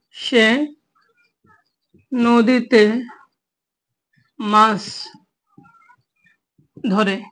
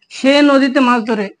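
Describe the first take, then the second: First: Each word alone with long pauses; word-by-word dictation. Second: The sentence said through in one go, a bit slow; whole sentence. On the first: Teacher dictating a Bangla example sentence to students, word by word. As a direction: dictate slowly, one word at a time. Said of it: "teacher dictates example word by word". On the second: Teacher reading the full example sentence to students, steady and slow. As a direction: run the words together as one sentence. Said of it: "teacher repeats example whole". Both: Shown as a demonstration.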